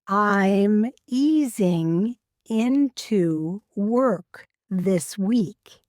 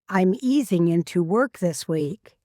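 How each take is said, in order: First: The sentence is spoken slowly. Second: The sentence is spoken at natural speed. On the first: "I'll say a sentence slowly" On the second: "then at a natural speed"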